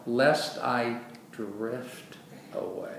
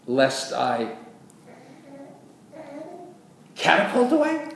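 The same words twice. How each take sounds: First: Very slow, softening and falling; drawn-out, fading at the end; slow drifting delivery. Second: Exaggerated disbelief, pitched very high; mock incredulous question. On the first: Shown as a demonstration. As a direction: let the words drift gently away. Correct wording, voiced as gradual drifting. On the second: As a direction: launch it suddenly, voice leaping up. Mock misreading set against drift.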